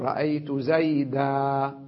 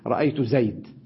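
First: The final word ends with a long 'a' vowel. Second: The final word ends on a bare consonant. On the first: This is the common way of pausing on the word. "لما أقف على زيدا أقول رأيت زيدا بالمد" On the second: "قبيلة ربيعة تقف على المنصوب المنون"

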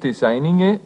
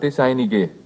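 First: The g is spoken as an ng sound. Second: The g is spoken as a plain g sound. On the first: "in denen das G als NG ausgesprochen wird" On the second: "auch die Sprechweise Meinige"

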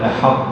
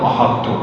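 First: The ḥa is pronounced thin and light. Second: The ḥa is pronounced thick and heavy. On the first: The speaker calls it right. "فتقول أحط ... دائما ... ترقق الحاء" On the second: The speaker calls it wrong. "لا تقول أحط"

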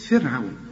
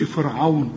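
First: The f and r sounds are light. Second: The f and r sounds are heavy. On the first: The speaker calls it right. "رقق الفاء ورقق الراء كمان" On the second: The speaker calls it wrong. "ما تقولش فرعون"

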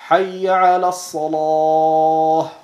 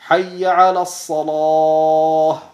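No difference in how they are said.

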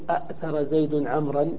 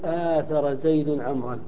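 First: The first word starts with two glottal stops. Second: The first word starts with a long a vowel. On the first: The speaker calls it wrong. "ما نقول أأثر زيد عمرا مع هذا القياس" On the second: The speaker calls it right. "فنقول آثر زيد عمرا"

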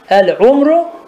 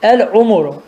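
First: No vowel is heard between m and r. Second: A u vowel is heard between m and r. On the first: "mimin sükunuyla da var" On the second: "damme ile de var"

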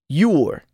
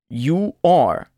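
First: The words merge into one short syllable. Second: Both words are said fully and separately. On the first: "luego contraído con el pronombre personal" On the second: "Primero oirá el verbo sin contracción"

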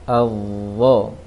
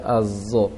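First: The consonant is a heavy th sound. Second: The consonant is a heavy z sound. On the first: The speaker calls it right. "Seharusnya dhal yang ditebalkan" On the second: The speaker calls it wrong. "jangan dibaca azo"

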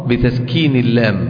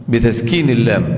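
Both takes have the same delivery.

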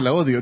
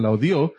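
First: The stress is on the first syllable of odio. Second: The stress is on the last syllable of odio. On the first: The writer hates her now. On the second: Someone hated it in the past.

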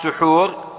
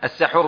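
First: The first vowel is a rounded 'u' sound. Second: The first vowel is an open 'a' sound. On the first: It names the act of eating before dawn. "وبالضم سحور هو الفعل" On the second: It names the food eaten before dawn. "السحور بالفتح"

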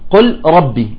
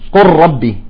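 First: The L sound is heard before the R. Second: The L merges fully into a doubled R. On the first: "نحن الآن اللام مع الراء" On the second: "فتصبح قل ربي"

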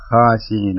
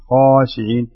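First: The first consonant and vowel sound thin and light. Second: The first consonant and vowel sound full and heavy. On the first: The speaker calls it wrong. "ما تقول خاشعين" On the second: The speaker calls it right. "الخاء هنا مفخمة، يكون يمتلئ الجوف الفم بالحرف"

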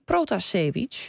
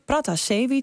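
First: The first vowel sounds like 'o'. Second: The first vowel sounds like 'a'. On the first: This follows the Dutch spelling of the name. "En ons hier in Hilversum" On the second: This is the official Russian pronunciation. "Luisteraars die horen onze correspondent [name] Pratasevich zeggen"

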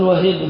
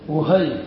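First: The first vowel is an a sound. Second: The first vowel is a u sound. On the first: The speaker calls it wrong. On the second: The speaker calls it right.

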